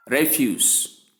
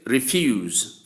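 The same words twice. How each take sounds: First: "refuse" as "REF-yoos", first syllable stressed; noun pronunciation. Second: "refuse" as "ri-FYOOZ", second syllable stressed; verb pronunciation. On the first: Teacher giving the noun meaning garbage, REF-yoos. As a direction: say "refuse" with a short E and final s. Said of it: "for the noun". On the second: Teacher giving the verb meaning decline, ri-FYOOZ. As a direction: say "refuse" with a final z sound. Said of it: "for the verb". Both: Shown as a demonstration.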